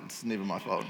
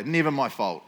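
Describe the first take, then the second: First: Softer, lower ironic aside; quiet mock repeat. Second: Said in the usual way. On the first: Shown as a demonstration. Repeating the excuse softly to the church. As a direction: drop it low like a private excuse.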